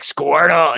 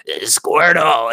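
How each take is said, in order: First: Raspy chain-smoker Squirtle; smoker's rasp. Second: Slow raspy chain-smoker Squirtle; smoker's rasp. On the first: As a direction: croak the name like a smoker. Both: Retold or imitated. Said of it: "like a chain smoker".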